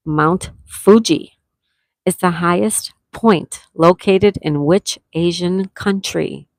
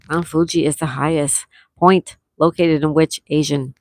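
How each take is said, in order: First: Slow. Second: Said in the usual way. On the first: Shown as a demonstration.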